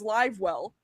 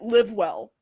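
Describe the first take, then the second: First: The first word rhymes with five. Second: The first word rhymes with give. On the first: The speaker calls it right. "but it's pronounced" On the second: The speaker calls it wrong. "I was pronouncing it"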